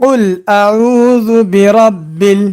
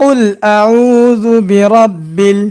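Both takes have the same delivery.

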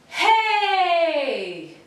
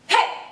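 First: It is stretched out and elongated. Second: It is short with strong impact.

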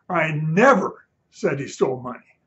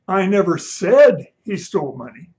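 First: The word 'never' is stressed. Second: The word 'said' is stressed.

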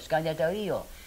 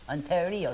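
First: The name is said as Scandetario. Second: The name is said as Ontario. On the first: The speaker calls it right. "means a nice lake" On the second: The speaker calls it wrong. "it isn't pronounced right"

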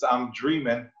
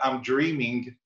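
First: The final g sound is dropped. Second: The final g sound is clearly pronounced. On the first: The speaker calls it right. "Ernie Bank never pronounced a G in his life" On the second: The speaker calls it wrong. "It's not I'm Dreaming"

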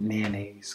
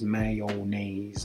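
First: The syllables are reduced, not following the spelling. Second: Every syllable closely follows the written spelling. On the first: The speaker says it the way natives do. The speaker calls it right. "because they're not familiar with how natives say it" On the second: The speaker is not familiar with how natives say it. The speaker calls it wrong. "ESL students will pronounce this mayonnaise"

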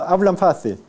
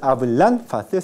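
First: The final n is made with lip and teeth. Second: The final n is made with the tongue tip. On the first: The speaker calls it right. "sino hablan fácil" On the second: The speaker calls it wrong. "No es hablan fácil"

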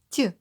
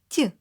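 First: The t sound is soft and palatalized. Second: The t sound is soft and palatalized.

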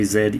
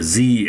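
First: The letter is said as zed. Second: The letter is said as zee.

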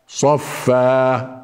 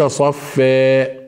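First: The final vowel is a plain open a. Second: The final vowel leans toward e. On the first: The speaker calls it right. "صفى صفى" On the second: The speaker calls it wrong. "ليس صفى ... هذه إمالة ليست مطلوبة"

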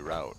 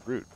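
First: The vowel sounds like the vowel in out. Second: The vowel sounds like the vowel in boot. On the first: The speaker calls it wrong. "I say route" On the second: The speaker calls it right. "it's got to be route"

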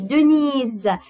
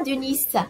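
First: The middle consonant is a buzzing z sound. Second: The middle consonant is a hissing s sound. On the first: The speaker calls it right. "car le S est entre deux voyelles, le I et le E" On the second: The speaker calls it wrong. "On ne dit pas Denise"

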